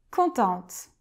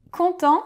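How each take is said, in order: First: "contente" with the final t clearly sounded; "contente", feminine, the t pronounced; feminine form. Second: "Content" with a silent final t, ending on the nasal vowel; "Content", masculine, final t left unspoken; masculine form. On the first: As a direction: say "contente" and land on a crisp t at the end. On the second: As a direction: say "Content" so it ends on the open nasal sound, no t. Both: Shown as a demonstration.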